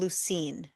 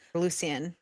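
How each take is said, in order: First: The name ends in '-een', almost like 'Lucy'. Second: The name is said in a French style. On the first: "he called him Lucine every time. Like it almost sounded like he was saying Lucy" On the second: "Or sometimes like the Frenchy way"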